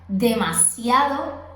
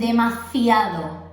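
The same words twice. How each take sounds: First: The middle consonant is a plain s sound. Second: The middle consonant is a strong th sound. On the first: The speaker calls it right. "la palabra demasiado" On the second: The speaker calls it wrong. "La S la convierten en Z, en C, en un sonido fuerte"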